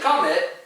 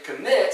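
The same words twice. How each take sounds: First: The stress is on the first syllable. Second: The stress is on the last syllable. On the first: The speaker calls it wrong. "You don't say" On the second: The speaker calls it right. "the emphasis is on the last syllable"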